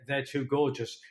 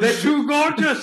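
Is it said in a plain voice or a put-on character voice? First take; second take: plain; put-on. First: It is said in his own plain voice. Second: It is said in the put-on advert voice.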